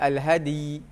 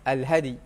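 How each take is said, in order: First: The d sound bounces strongly and heavily. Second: The d sound bounces only lightly. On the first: The speaker calls it wrong. "tapi jangan al-hadi" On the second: The speaker calls it right. "dia nak bunyi juga ya tu sikit sikit"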